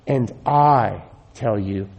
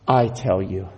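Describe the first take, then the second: First: Slow, weighty stress on I in "And I tell you"; emphatic. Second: Said in the usual way. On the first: Shown as a demonstration. Preacher quoting Jesus to Peter, slow emphatic stress on "I". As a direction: lean hard on "I" and draw "And I tell you" out slowly. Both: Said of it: "emphatic here".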